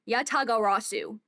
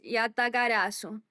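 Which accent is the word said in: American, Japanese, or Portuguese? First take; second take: American; Portuguese. First: It is said with an American English accent. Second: It is said with a Portuguese accent. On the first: The speaker calls it wrong. "Like American" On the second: The speaker calls it right.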